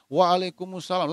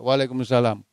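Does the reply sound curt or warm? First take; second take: warm; curt. First: The reply sounds warm, eager and attentive. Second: The reply sounds curt, perfunctory and dismissive. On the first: The person greeted is a superior. "Kalau yang memberi salam itu atasannya, ... Dia menghadap wajahnya" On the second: The person greeted is only a subordinate. "sekedar ija"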